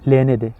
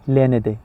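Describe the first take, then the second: Both takes have the same delivery.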